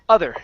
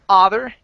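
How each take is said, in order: First: The first vowel sounds like 'uh'. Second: The first vowel sounds like 'ah'. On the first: The speaker calls it right. "it's uh other" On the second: The speaker calls it wrong. "instead of ah other"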